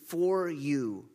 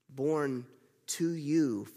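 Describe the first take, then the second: First: For leaned on in for you; stress on FOR. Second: Slow, leaning on the word to in Born to you; stress on TO. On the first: Preacher stressing for for the congregation. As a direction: hit the word for. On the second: Preacher stressing to for the congregation. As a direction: press the word to, slowly. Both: Shown as a demonstration. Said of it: "repeats phrase, stressing preposition".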